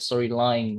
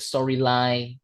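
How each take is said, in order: First: The final n sound is clearly pronounced. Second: The final n sound is left off. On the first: The speaker calls it right. "it should be a storyline" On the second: The speaker calls it wrong. "The last time it's just like uh, the storyline. Not"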